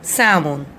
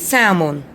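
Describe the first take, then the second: First: The L sound is silent. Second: The same.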